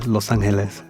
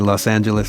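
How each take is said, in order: First: The name is said with Spanish sounds. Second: The name is said with English sounds. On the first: "I don't say it the Spanish way" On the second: "I say Los Angeles"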